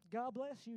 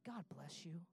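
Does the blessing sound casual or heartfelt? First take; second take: casual; heartfelt. First: It is said quickly and offhandedly. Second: It is said warmly and sincerely. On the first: The blessing is a mere formality. The speaker calls it wrong. "you don't say it like" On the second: The speaker truly connects with the listener. The speaker calls it right. "You say it like, ... And you connect with them"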